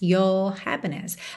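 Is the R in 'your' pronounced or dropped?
dropped. The R in 'your' is dropped, British-style.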